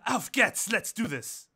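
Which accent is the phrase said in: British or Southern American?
British. It is said in a British accent. "but then I had a British voice"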